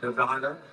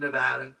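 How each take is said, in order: First: The middle vowel sounds like the 'a' in father. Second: The middle vowel sounds like the 'a' in cat. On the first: The speaker calls it wrong. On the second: The speaker calls it right.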